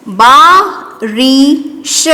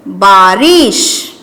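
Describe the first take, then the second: First: Very slow, each syllable stretched; slow dictation. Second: Said in the usual way. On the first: Shown as a demonstration. Teacher dictating to pupils, stretched slowly. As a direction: draw the word out for children. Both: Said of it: "क्या बन गया ये?".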